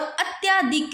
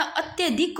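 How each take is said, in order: First: "अत्याधिक" with long tyaa; rejected pronunciation. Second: "अत्यधिक" with short tya; corrected pronunciation. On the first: Teacher showing the error, "अत्याधिक" with long tyaa. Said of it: "या नहीं लगता". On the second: Teacher giving the correction, "अत्यधिक" with short tya. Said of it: "अत्यधिक होता है". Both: Shown as a demonstration.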